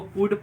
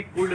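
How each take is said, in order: First: "कुड" with short u straight into D; silent L. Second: "कुड" misread with an audible L before D; wrong pronunciation. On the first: Teacher giving the reading of could, कुड with silent L. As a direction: say कुड as kood, no L. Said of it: "इसको कुड पढ़ेंगे". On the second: Teacher showing what not to read, कुड with L voiced. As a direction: say कुड as koold, L sounded. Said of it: "कुड नहीं पढ़ेंगे". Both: Shown as a demonstration.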